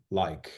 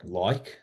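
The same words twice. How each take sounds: First: "like" imitating the other speaker's milder vowel; her way of saying "like". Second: "like" in a put-on Australian accent; own Australian "like". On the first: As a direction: copy her less broad Australian "like". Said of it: "you're saying it differently". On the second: Shown as a demonstration. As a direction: give "Like" a broad Australian vowel, close to "loik". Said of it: "is not how my Australian".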